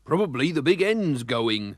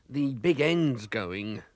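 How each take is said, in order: First: Said in the usual way. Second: Very slow, drawn-out doom; slow and gloomy. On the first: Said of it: "said the garage man". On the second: Acted. Mister Bumblebee grimly diagnosing the engine, very slow. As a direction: drag it out like bad news. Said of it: "said Mister Bumblebee".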